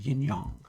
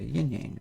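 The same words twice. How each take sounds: First: The word yang has a Chinese vowel sound. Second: The word yang has an English vowel sound. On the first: The speaker calls it right. "yang is the way you would actually pronounce that" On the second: The speaker calls it wrong. "There's no yang sound in Chinese"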